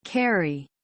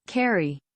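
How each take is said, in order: Both takes have the same delivery.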